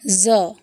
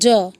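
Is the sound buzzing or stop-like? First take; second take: buzzing; stop-like. First: It is a continuous buzzing sound like a bee. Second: It starts with a brief stop at the palate. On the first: "यह एक buzzing sound" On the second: "तालु से अल्प प्राण ये ध्वनि है"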